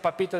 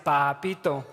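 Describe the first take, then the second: First: It is said with short, plain vowels. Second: It is said with long, stretched Cordoba vowels.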